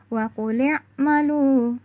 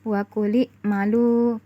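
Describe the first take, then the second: First: A deep q sound and a throat ain are used. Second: A plain k sound and a glottal stop are used. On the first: The speaker calls it right. "padahal seharusnya kita baca" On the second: The speaker calls it wrong. "qaf diganti dengan huruf kaf dan ain diganti hamzah"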